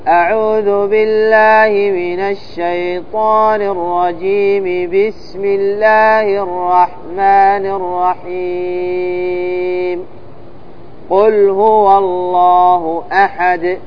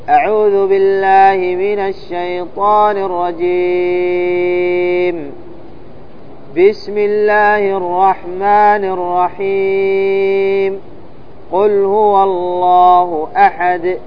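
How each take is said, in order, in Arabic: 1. يقف بعد 'rahim' فقط. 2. يقف بعد 'rajim' و'rahim' معًا. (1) "وصل الاستعاذة بالبسملة والوقف عليها ثم الابتداء بأول السورة" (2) "هذا يسمى قطع الجميع، بمعنى أنه يفصل الاستعاذة عن البسملة والبسملة عن أول السورة"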